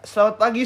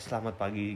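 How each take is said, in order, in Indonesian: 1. Sapaannya kedengarannya ceria dan hidup. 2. Sapaannya kaku dan formal. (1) "intonasinya bisa dirubah kayak" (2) "kayak baku banget"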